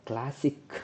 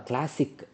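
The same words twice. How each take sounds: The two takes are said the same way.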